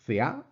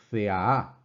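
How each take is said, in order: First: C A as thea with the accent on the first part of the long A; wrong accent placement. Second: C A A as thea-A, long A stressed on its second half; exaggerated second-part accent. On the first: Teacher showing students what it is not, wrong accent placement. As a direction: say C A as thea, the long A stressed early, not at its end. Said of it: "eh, no es C A". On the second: Teacher exaggerating so students notice, accent on second part. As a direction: exaggerate C A A, doubling the final A with the accent late. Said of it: "para exagerarlo un poco".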